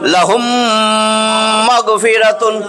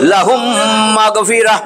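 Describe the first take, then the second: First: The last word ends with a full 'tun'. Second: The last word ends with an 'h' sound. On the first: The reading continues without stopping. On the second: The reading stops at this word.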